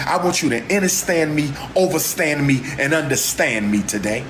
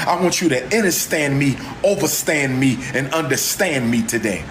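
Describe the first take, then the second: No difference in how they are said.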